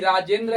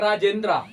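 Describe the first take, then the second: First: The name ends without a long 'aa' vowel. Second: The name ends with a long 'aa' vowel. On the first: The speaker calls it right. "राजेंद्रा है ही नहीं, राजेंद्र है" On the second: The speaker calls it wrong. "तो बहुत सा बच्चा पढ़ेगा राजेंद्रा"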